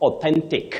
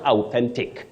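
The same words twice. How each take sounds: First: The first vowel sounds like 'o'. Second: The first vowel sounds like 'ow'. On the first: The speaker calls it right. "So you say O, not ow" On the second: The speaker calls it wrong. "not authentic"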